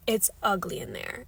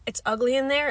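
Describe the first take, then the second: First: Said in the usual way. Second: "It's ugly in there" repeated higher and louder, pressing on "there"; emphatic repeat. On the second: Shown as a demonstration. Warning viewers off Walmart, emphatic louder repeat. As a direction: drive the repeat home, dead serious. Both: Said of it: "how dead serious I am".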